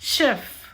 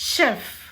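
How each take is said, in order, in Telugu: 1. ఇది sh శబ్దంతో మొదలవుతుంది. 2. ఇది sh శబ్దంతో మొదలవుతుంది.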